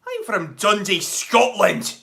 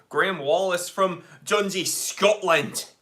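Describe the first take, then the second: First: Put-on reading a viewer's line in a Scottish accent, a touch louder. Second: Said in the usual way. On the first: Streamer voicing a Scottish viewer's greeting in a Scottish accent. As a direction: put on a Scottish burr for Dundee. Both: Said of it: "Your accents are on point".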